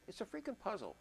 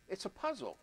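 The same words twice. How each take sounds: First: Freaking pushed hard and high; stress on freaking. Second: Said in the usual way. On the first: Real, not acted. Producer calling the beat a puzzle, stress on freaking. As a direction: lean on freaking, amused exasperation.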